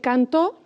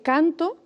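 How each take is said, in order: First: The stress is on the second syllable. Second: The stress is on the first syllable. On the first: "la sílaba tónica de cantó es to" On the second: "la sílaba tónica es can"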